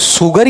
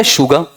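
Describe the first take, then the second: First: "शुगर" begun with a plain s, r sounded; s pronunciation. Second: "शुगर" begun with sh, final r dropped; sh pronunciation. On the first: Teacher offering students two options, the s version. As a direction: say "शुगर" as "suggar", with s not sh. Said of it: "शुगर या शुगर". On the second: Teacher offering students two options, the sh version. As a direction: say "शुगर" as "shuga". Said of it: "इसका उच्चारण इससे निकल कर आएगा". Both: Shown as a demonstration.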